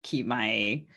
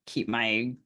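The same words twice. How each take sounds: The two takes are said the same way.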